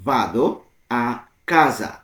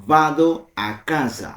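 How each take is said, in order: First: "Vado ... a ... casa" with a clear pause after each word. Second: Said in the usual way. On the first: Shown as a demonstration. Teacher breaking down "I go home" in Italian, word by word. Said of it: "ভেঙে ভেঙে".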